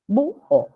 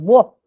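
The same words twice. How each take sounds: First: The u and o fall in separate syllables. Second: The u and o merge into one syllable. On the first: The speaker calls it right. "acá se separó cerrada más abierta con mayor énfasis la cerrada" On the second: The speaker calls it wrong. "Acá no podemos juntar, no podemos hacer búho"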